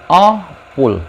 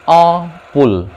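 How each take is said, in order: The two takes are said the same way.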